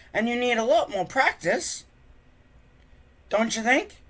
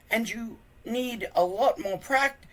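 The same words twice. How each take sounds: First: Higher, gentle hinting voice. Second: Said in the usual way. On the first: Acted. Friend kindly hinting at Hiccup, higher voiced. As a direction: nudge him kindly toward practice.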